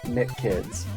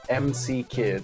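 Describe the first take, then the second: First: The first part is said as one syllable. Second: The first part is spelled out as two letters. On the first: The speaker calls it wrong. "not Mick Kids" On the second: The speaker calls it right. "you have to pronounce this as M C Kids"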